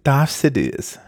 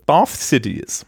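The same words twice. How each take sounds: First: "Darth Sidious" in a posh British accent. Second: "Darth Sidious" with a German S, "Sitis"; German-style pronunciation. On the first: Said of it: "war das mit britischem Akzent?". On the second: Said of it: "also Darth Sidious". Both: Shown as a demonstration.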